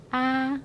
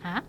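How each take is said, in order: First: Long, level "아". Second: Brief "아"; short A. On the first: Teacher reviews the first letter, "아" held long. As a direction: draw out "아". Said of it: "앞에 거". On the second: Teacher reviews the second letter, "아" kept short. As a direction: cut "아" short. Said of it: "뒤에 거". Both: Shown as a demonstration.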